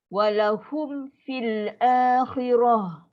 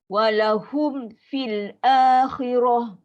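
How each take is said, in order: Both takes have the same delivery.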